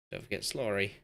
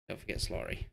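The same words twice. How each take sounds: First: Said in the usual way. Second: Whispered reminder to himself; whispering. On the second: Shown as a demonstration. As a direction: breathe it out in a whisper. Repeating a player's name to remember.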